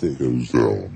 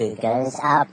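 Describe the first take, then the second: First: Much lower processed voice; pitch shifted down. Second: Pitch shifted up. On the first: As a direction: drop it deep through the shifter. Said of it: "if it turns it to the left". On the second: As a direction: voice sliding up through a shifter. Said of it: "if I turn it to the right". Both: Shown as a demonstration.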